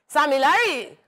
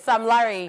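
First: The first name is said with two syllables. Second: The first name is said with one syllable. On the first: This is how hype men say the name. "the Sammy Larry pronunciation is when they're hyping" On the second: This is the name as it is spelled. "It's Sam Larry"

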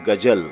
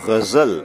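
First: It has a plain g and a j. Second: It has a guttural gh and a z. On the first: The speaker calls it wrong. "not Gajal" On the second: The speaker calls it right. "We say Ghazal"

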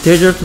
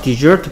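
First: The stress is on the first syllable. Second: The stress is on the second syllable. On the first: It means a dry sandy region. "첫 음절에 강세가 있으면 desert라고 읽고 사막이고요" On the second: It means to abandon. "두 번째 음절에 강세가 있을 때는 desert라고 읽고요"

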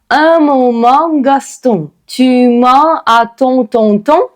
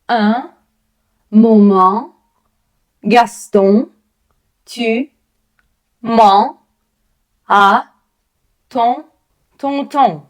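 First: The words run together as one phrase. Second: Each word is said apart with pauses. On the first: "всю скоромовку" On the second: "кожне слово окремо"

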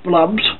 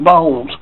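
First: The l comes before the vowel: blubs. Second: The l comes after the vowel: bulbs. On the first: "I just like calling them blubs" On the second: "I said it right, bulbs"

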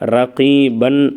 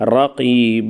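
First: The word ends with an n sound. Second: The word ends on an open long vowel. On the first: The word is read in running speech. "ரகீபன் அப்படின்னு இருந்தால்" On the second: The reader stops on this word. "ரகீப அப்படின்னு"

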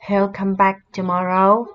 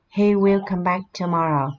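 First: He and will merge into one short syllable. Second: He and will are said as two full words. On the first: "mình sẽ đọc là he'll" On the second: "or he will come back tomorrow"

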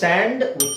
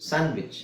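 First: The d is clearly sounded. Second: The d is left silent. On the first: The speaker calls it wrong. "ಅದು ಸ್ಯಾಂಡ್ವಿಚ್ ಅಲ್ಲ" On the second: The speaker calls it right. "So ಡಿ silent ಆಗಿರೋದು ಸ್ಯಾಂಡ್ವಿಚ್"

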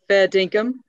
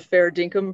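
First: It is said in a put-on Australian accent. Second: It is said in the speaker's ordinary accent.

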